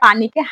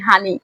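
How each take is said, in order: First: The word begins with a 'p' sound. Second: The word begins with an 'h' sound. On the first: This is the standard form. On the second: This is the local dialect form.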